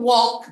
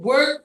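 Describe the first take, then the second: First: The word is said as 'walk', with no R sound. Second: The word is said like 'work', with an R-like sound. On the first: The speaker calls it right. "alam nila that the pronunciation is walk" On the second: The speaker calls it wrong. "nagiging work kasi nakikita nila visibly yung L"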